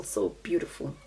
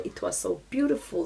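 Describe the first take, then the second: First: Hushed whispered repeat. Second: Said in the usual way. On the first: Real, not acted. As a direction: echo it in a soft whisper. Echoes her own words, unvoiced.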